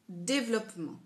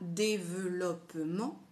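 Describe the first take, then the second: First: It is said fast, dropping the middle vowel. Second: Every syllable is said, including the middle vowel. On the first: "si je le dis très vite ... Quand je parle, je dis développement" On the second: "je ne dis pas développement"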